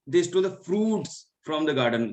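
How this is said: The word fruits carries the main stress. It was the fruits that they stole. "यहाँ पे मैं fruits पे किया है"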